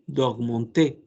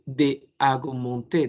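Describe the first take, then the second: First: The vowel of 'de' is dropped before 'augmenter'. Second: The vowel of 'de' is kept before 'augmenter'. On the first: The speaker calls it right. "dice d'augmenter" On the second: The speaker calls it wrong. "no dice de"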